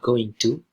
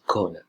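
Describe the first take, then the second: First: Both words are said fully and separately. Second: The words blend into one reduced word.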